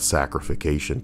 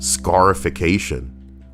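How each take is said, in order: First: The word begins with the sound 'sac'. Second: The word begins with the sound 'scar'. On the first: The speaker calls it wrong. "Not sacrification" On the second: The speaker calls it right.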